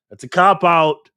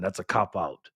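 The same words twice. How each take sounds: First: "That's a cop-out" said again slower and louder, leaning on "cop-out"; emphatic repeat. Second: Said in the usual way. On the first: Real, not acted. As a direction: hit "cop-out" hard the second time.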